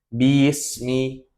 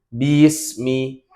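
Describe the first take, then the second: First: The ba is dragged to two beats. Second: The ba is dragged to two beats.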